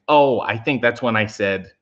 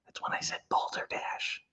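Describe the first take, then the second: First: Said in the usual way. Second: Put-on hushed whisper so the kids won't hear. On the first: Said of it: "My kids are watching". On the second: Streamer hiding a mock swear from viewers' kids, whispered. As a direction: mouth it in a breathy secret whisper. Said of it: "if I don't want the kids to hear".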